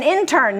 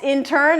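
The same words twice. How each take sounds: First: "intern" said in-TERN; "intern" as a verb, end-stressed in-TERN; stress on second syllable. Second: "intern" said IN-tern; "intern" as a noun, front-stressed IN-tern; stress on first syllable. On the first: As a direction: hit TERN in "intern", meaning confine. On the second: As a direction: hit IN in "intern", the trainee. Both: Shown as a demonstration. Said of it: "you're changing the emphasis".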